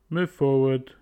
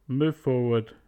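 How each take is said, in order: Both takes have the same delivery.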